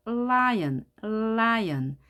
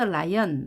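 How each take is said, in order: First: "lion" with a lengthened L onset; correct held L. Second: "lion" started abruptly, Korean-style ra-i-eon; mistaken light L. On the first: Teacher corrects the learner's habit, "lion" with held L. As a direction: hold the L before opening into "lion". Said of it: "lion 하는 것이 아니라". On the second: Teacher shows what to avoid, "lion" with unprepared L. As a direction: say "lion" without preparing or holding the L. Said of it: "하는 것이 아니라". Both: Shown as a demonstration.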